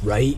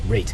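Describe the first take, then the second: First: The vowel sounds like the one in 'rite'. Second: The vowel sounds like the one in 'rate'. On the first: "how I pronounce right is like so funny to them" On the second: "Why don't you say like rate?"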